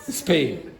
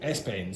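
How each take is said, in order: First: The word starts directly with the s sound. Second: An extra e vowel comes before the s. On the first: The speaker calls it right. "take off the e and say Spain" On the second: The speaker calls it wrong. "She said Espain"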